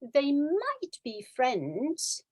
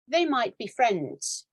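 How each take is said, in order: First: It sounds hesitant and unsure. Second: It sounds confident and sure. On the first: The speaker is only guessing. "when I hesitate" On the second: The speaker is fairly sure. "the second one, I'm more certain"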